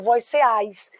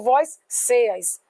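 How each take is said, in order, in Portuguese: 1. A sílaba tônica está na segunda sílaba. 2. A sílaba tônica está na primeira sílaba. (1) "com força nesse A" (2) "eu não ponho força no C E. Eu não digo vós ceas"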